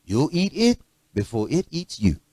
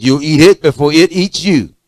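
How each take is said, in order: First: Mother's soft warning. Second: Louder, emphatic parental warning; firm warning. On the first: Mother warns her child about dinner, soft and gentle. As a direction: murmur it like mama at the table. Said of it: "My mother said". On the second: Parent insists the child eats the food, firm and loud. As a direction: lay down the law at the dinner table. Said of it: "I said". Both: Retold or imitated.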